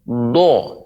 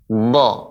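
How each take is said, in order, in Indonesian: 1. Bibirnya membulat, menghasilkan vokal seperti o. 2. Bibir tetap netral, menghasilkan vokal terbuka seperti a. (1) "tidak boleh monyong. Do, ini keliru ya" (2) "Bibir kita tidak monyong ya, terjaga biasa. Dha, dha yang ditebalkan bagian dalamnya"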